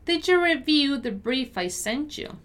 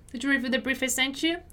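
First: Careful, measured read rising at the end; deliberate pronunciation model. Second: Fast, linked-up question; conversational-speed model with a rising end; quicker repeat. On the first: Teacher models sentence slowly first. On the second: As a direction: ask it briskly at natural speed. Teacher repeats at quicker pace. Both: Shown as a demonstration.

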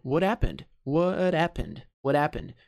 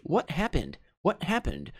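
First: "What happened" run together with no H; American linking, H dropped. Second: "What happened" with the H clearly sounded; clearly pronounced. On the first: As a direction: link "What" straight into "happened", H silent. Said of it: "vão juntar esse happened como se o H não existisse". ("What happened" emendado, sem som de H) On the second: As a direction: say "What happened" as separate words, H intact. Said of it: "ele pronuncia bem claramente". ("What happened" bem articulado, com o H pronunciado) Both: Shown as a demonstration.

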